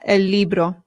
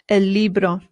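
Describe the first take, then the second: No difference in how they are said.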